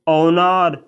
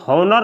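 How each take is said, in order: First: The word begins with a vowel sound. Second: The word begins with an h sound. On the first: The speaker calls it right. "इसे बोला जाता है ऑनर" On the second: The speaker calls it wrong. "इसे हॉनर नहीं बोला जाता है"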